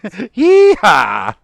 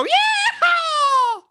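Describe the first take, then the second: First: Loud, high cowboy holler; belted cowboy cry; harder-worked yeehaw. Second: Very high shouted cowboy whoop; full-out yeehaw. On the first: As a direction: whoop it out with effort. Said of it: "put some work into it". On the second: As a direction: demonstrate a huge rodeo holler. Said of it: "You gotta go". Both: Shown as a demonstration.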